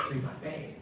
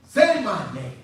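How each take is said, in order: First: Low, soft demand; quiet retold order; low-key demand. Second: Demanding, louder on the repeat; insistent retold order; forceful demand. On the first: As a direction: say it low and controlled. First, softer take of demand. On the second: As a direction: press it as a command. Quoted demand to say his name.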